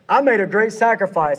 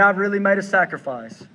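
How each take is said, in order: First: It is said in an arrogant tone. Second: It is said in a sad tone.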